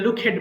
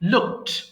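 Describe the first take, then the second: First: The ending is an extra syllable. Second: The ending adds no extra syllable. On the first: The speaker calls it wrong. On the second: The speaker calls it right.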